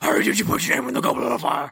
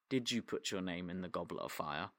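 First: It is shouted loudly and urgently. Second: It is said quietly and calmly.

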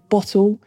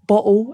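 First: The T is clearly pronounced. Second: The T is dropped, South London style.

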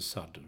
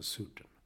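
First: The first vowel is an English-like open sound. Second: The first vowel is a Swedish rounded u sound. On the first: The speaker calls it wrong. "Vi säger inte sadden" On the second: The speaker calls it right. "vi säger sudden"

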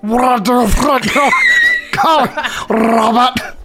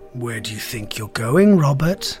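First: It is said in a put-on alien voice. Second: It is said in a fairly normal voice.

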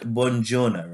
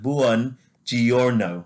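First: The vowels are run together quickly. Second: Every vowel is clearly sounded out. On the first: The speaker calls it wrong. "So I thought it was like buongiorno" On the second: The speaker calls it right. "they sound out every single vowel"

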